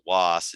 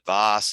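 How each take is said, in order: First: The name begins with a W sound. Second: The name begins with a V sound. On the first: "some people pronounce it Was" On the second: "some people pronounce it Voss"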